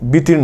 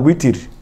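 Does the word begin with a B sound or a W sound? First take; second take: B sound; W sound. First: The word begins with a B sound. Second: The word begins with a W sound. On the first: The speaker calls it wrong. "তাই আমরা বলি বিতির নমাজ" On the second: The speaker calls it right. "আসলে কিন্তু বিতির না, উইতির"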